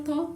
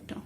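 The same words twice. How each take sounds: First: "ta" with the tongue between the teeth; dental T. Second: "ta" with the tongue back on the palate; palatal T. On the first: Teacher showing learners the sound with tongue between teeth, dental "ta". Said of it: "So it is dental ta". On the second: Teacher contrasting it with the dental sound, palatal "ta". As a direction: say "ta" with a hard palatal t. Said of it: "this one is palatal ta". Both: Shown as a demonstration.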